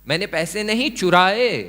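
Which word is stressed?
चुराए. The word चुराए carries the stress. The money was borrowed, not stolen. "मैंने बोरो किया, कुछ और किया"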